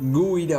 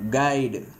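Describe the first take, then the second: First: It begins with a gw sound. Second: It begins with a plain g sound. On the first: The speaker calls it wrong. "குயிடுன்னு நம்ம சொல்றது இல்லை" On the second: The speaker calls it right. "ஏன்னா கைடு யூக்கு silent"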